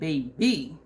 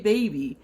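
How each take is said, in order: First: The word is said with exaggerated, careful enunciation. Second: The word is said casually, without extra articulation. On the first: "he's like, ... you know it's hitting when you enunciate" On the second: "I just say "baby,""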